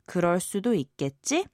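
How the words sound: The voice rises at the end. It asks for agreement that it could be so.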